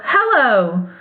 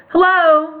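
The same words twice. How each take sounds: First: Said in the usual way. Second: The Tin Woodman answers Hello evenly, as a greeting; calm reply. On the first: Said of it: "Dorothy went on". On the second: Acted. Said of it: "replied the Tin Woodman calmly".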